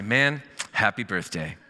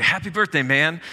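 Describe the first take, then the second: First: Slow, easy delivery at everyday pitch; slower, understated greeting. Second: Bright burst, higher and louder; upbeat greeting. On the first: Pastor voicing the reworded birthday card, slow and understated. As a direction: draw the greeting out without any shout. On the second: Pastor reading a sample birthday card, upbeat and loud. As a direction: cheer it out like a birthday shout. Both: Acted.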